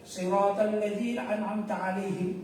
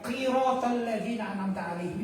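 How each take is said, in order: First: The first word begins with an s sound. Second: The first word begins with a q sound. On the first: The speaker calls it right. "kan gitu mestinya" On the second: The speaker calls it wrong. "itu merubah arti, maka batal sholatnya"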